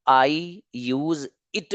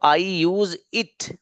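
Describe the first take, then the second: First: Stretched slowly, word by word; slow model sentence. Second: Every word stretched out slowly; slow model sentence. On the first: (धीरे-धीरे model वाक्य) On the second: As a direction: lay the sentence out slowly for students. (धीरे-धीरे, हर शब्द खींचकर) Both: Shown as a demonstration. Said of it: "teacher models sentence slowly".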